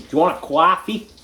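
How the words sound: It is said in a put-on American accent.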